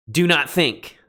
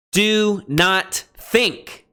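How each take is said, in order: First: "Do not think" with a firm stress on "Do"; emphatic command. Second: Very slow, drawn-out "Do not think", higher and stressed on "Do"; emphatic DO NOT. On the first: Teacher repeating the command for students, firm and emphatic. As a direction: press "Do" firmly, then fall. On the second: Teacher reading Jesus' command to students, slow and emphatic. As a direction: stretch "Do not think" out, leaning hard on "Do". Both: Shown as a demonstration. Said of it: "He is emphatically saying".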